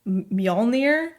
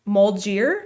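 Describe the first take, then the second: First: The word is said as 'Myol-neer'. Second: The word is said as 'Mul-gier'. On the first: The speaker calls it right. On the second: The speaker calls it wrong.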